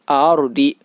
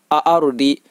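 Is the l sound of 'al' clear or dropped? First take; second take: dropped; dropped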